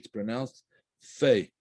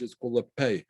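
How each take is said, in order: First: It begins with a soft F sound. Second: It begins with a hard P sound. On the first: The letter has no dot in it. "Without a dagesh" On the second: The letter has a dot in it. "It's the letter with a dagesh"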